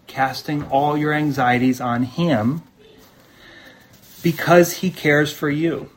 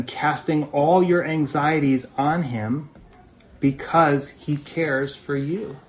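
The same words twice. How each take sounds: First: Said in the usual way. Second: Slow, deliberate reading of the verse; slow scripture reading. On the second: Shown as a demonstration. Pastor reading the verse to the church, slow and deliberate. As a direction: let each word land slowly.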